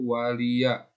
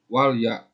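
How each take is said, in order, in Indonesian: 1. L diikuti vokal pendek. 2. L tidak diikuti vokal. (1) "tapi waliya" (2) "suka banyak yang baca wali, walya ... lamnya mati. Jangan"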